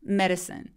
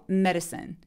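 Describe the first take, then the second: No difference in how they are said.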